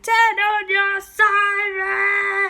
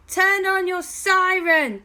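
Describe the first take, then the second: First: High, louder, drawn-out yell; slow loud shout. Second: High, loud urgent shout. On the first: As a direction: stretch the shout as loud as you can. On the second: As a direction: yell the order across the street. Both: Acted. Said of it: "as loud as they possibly could".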